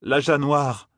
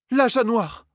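First: Said in the usual way. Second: Cried out. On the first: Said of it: "déclara Nineveh". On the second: A narrator's reading. The heiress alarmed by the words, high cry. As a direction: blurt "L'âge noir" out in alarm. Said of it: "cria la fille héritière".

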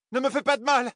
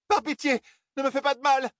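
First: Very high pleading cry; fluttering cries for help. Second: Very high frightened begging; fluttering cries for help. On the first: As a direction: feign terror, begging. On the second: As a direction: plead for mercy in panic. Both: A narrator's reading. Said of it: "cria-t-elle".

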